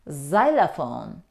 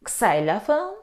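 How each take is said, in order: First: It begins without the letter name 'ex'. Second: It begins with the letter name 'ex'. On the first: The speaker calls it right. "The letter X isn't pronounced in these words. We say xylophone" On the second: The speaker calls it wrong. "Do you say xylophone? ... No"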